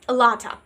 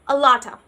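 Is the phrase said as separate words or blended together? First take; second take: blended; blended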